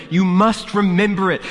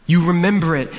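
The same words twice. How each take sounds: First: "must" punched high and loud; stress on MUST. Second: High, loud desperate cry; terrified plea. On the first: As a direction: hit "must" hard in terror. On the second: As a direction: plead in rising terror. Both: A narrator's reading. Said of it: "a note of terror in her voice".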